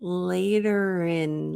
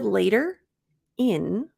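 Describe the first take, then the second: First: The r sound links into the next word. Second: The two words are said separately. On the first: The speaker calls it right. "we're going to link it, rin, rin" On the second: The speaker calls it wrong. "instead of later in"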